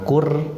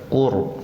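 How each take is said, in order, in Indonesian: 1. Bunyi r terdengar ringan dan tipis. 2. Bunyi r terdengar berat dan tebal. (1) "jangan kur" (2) "bacaannya tafhim atau tebal"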